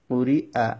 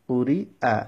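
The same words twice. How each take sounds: No difference in how they are said.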